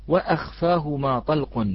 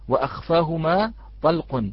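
No difference in how they are said.

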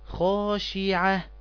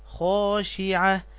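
Both takes have the same delivery.

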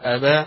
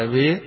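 First: The final vowel is a fully open 'a'. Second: The final vowel is tilted fully toward 'ee'. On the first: "لا فتح مفتوح أبا" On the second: "ولا إضجاع أبي"

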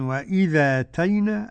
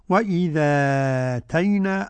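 First: The long vowel is held for two counts. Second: The long vowel is held for four counts. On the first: "أدي حركتين مع النقل" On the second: "أربعة مع النقل"

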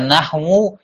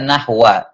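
First: The word ends with an u vowel. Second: The word ends with an a vowel. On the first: The word is in the nominative case. "bisa marfu, ... bisa dibaca nahwu" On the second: The word is in the accusative case. "bisa mansub, ... bisa dibaca nahwa"

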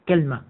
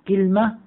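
First: The word has two syllables, kal-ma. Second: The word has two syllables, kil-ma. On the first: "الوزن الثالث على وزن تمرة" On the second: "اللغة الثانية كلمة على وزن سدرة"

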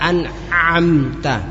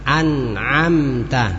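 First: The ain is strained and overdone in the throat. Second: The ain is pronounced in a plain, moderate way. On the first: The speaker calls it wrong. "Tidak usah an'amta" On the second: The speaker calls it right. "Biasa saja an'a"

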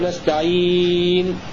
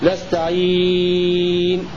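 First: The vowel before the final n is held moderately. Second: The vowel before the final n is held longest. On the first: "وتوسط" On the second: "وطول"

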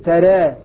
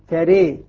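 First: The vowel after r is between a and e. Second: The vowel after r leans to e. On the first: "تقليل" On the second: "إمالة"

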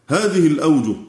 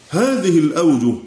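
The two takes are said the same way.

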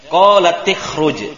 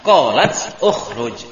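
First: The t of qalat runs into an i vowel. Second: The word after qalat starts with a u vowel. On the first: This is how the phrase is actually read. "Makanya dibaca qalat ikhruj" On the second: This is the underlying original form. "Asalnya qalat ukhruj"

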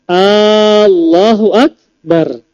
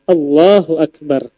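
First: The opening vowel is drawn out long. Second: The opening vowel is kept short. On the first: It asks whether God is the greatest. The speaker calls it wrong. "kalau seandainya A-nya dipanjangkan" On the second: It declares that God is the greatest. The speaker calls it right. "jangan sampai salah"

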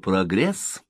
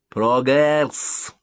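First: The word is said in an ordinary way. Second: The word is said with a showy, affected flourish.

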